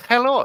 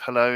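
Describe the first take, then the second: First: Put-on German-accented hallo; hello with a German-style first vowel. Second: Said in the usual way. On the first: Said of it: "with a German accent". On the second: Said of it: "instead of 'hello'".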